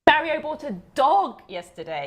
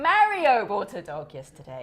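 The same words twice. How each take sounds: First: The stress falls on the word dog. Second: The stress falls on the word Mario. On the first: It was a dog, not a frog. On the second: It was Mario, not Maria.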